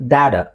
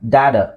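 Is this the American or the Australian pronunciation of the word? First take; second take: American; American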